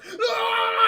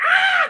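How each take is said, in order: First: A high, loud yelp of pain; mock shock scream. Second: A very high, very loud exaggerated scream; hammed-up shriek. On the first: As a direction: yelp like a man who just got zapped. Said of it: "he goes". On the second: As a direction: overdo the shock into a shriek. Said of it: "he goes like".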